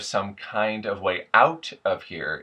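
The vowel in 'out' is a full 'ow' sound. This is the usual American way. "So instead of"

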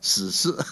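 The word is pronounced with Mandarin sounds. "这个两个普通话也不好念"

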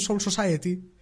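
Soul is said as one English-style syllable. The speakers try hard to sound native. "lo pronuncian bien, pero lo pronuncian demasiado bien"

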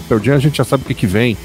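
The sentence sounds pleased and approving. Knowing what to expect is a good thing. "por um lado, é uma coisa positiva"

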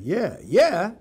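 It sounds genuinely agreeing, meaning a real yes.

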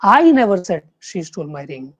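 The stress falls on the word I. Someone else said it. "अगर आप first जो word है उसको आप स्ट्रेस देंगे"

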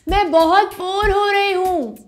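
The voice is high-pitched.

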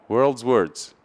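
It is said quickly with the words run together. "Em americano"

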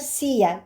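The middle consonant sounds like a y. This is how it is said in Spain. "Ama İspanya'daki okunuş arkadaşlar siya, y sesini veriyor"

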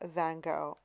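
The name is said in a Canadian way. "I'm originally Canadian, ... and so I say Van Gogh"

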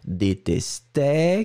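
The pitch rises at the end of the word. "détesté qui monte"

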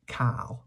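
It is said with a western Welsh pronunciation. "if you're a Westerner"

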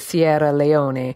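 The name is said with Italian pronunciation. "If you said it with the proper Italian pronunciation"

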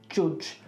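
The vowel has a Birmingham accent sound.

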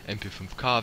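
The letters are spoken with German letter names. The speaker calls it wrong. "ist eine deutsche Waffe, also MP5K wenn schon ... das hört sich scheiße an"

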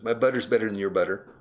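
It is spoken in a General American accent. "In toda America"

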